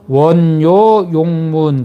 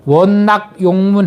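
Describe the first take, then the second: First: The second syllable is pronounced yo. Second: The second syllable is pronounced nak. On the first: This is the traditional reading. "어쨌든 우리는 전통적으로 원요 용문" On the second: This reading is also acceptable. "원낙 용문 해도 되는데"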